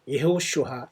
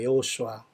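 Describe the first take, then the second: First: It begins with 'ye' and has an 'sh' sound. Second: It begins with 'yeo' and has a plain 's'. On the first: This is closer to the original Hebrew. "더 정확하게 할 수 있는 것은 예호슈아" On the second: This is the usual Korean form of the name. "구약의 선지자는 여호수아입니다"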